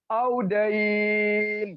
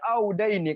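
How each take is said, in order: First: The word stops on a lengthened final n sound. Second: The word is read through, ending on a vowel. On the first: The speaker calls it right. "cara bacanya kita harus audain" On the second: The speaker calls it wrong. "jangan kita baca auda ini"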